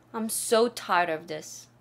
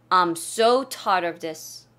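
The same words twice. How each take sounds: First: "so" stretched and leaned on; stress on so. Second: "so" drawn out and pushed louder; stress on so. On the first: 선생님이 so를 길게 강조하는 시범. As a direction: lean hard on "so". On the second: 학생들에게 so를 더 세게 강조하는 두 번째 시범. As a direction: really lean into "so". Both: Shown as a demonstration. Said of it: "so의 강조를 많이 했죠".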